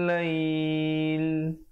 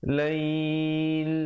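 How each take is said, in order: No difference in how they are said.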